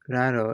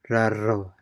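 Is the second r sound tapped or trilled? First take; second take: tapped; trilled. First: The second r is a single light tap. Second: The second r is a vibrating trill. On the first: The speaker calls it wrong. "instead of raro" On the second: The speaker calls it right. "it is more like raro"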